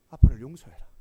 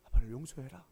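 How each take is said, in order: First: Crying out for forgiveness, loud and rising; a loud, rising cry of 아빠를 용서해라; loud tearful plea. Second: A hushed 아빠를 용서해라. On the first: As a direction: beg your son aloud, voice swelling. Father begs sons' forgiveness. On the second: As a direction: ask gently, held back. Father begs sons' forgiveness again. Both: Retold or imitated.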